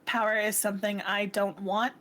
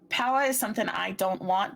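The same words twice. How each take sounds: First: It is spoken in the speaker's natural accent. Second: It is spoken in a put-on character accent. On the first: It is technically out of character. The speaker calls it wrong. "I realized I wasn't using her accent" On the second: It is said in character. The speaker calls it right. "do it again in the Brine accent"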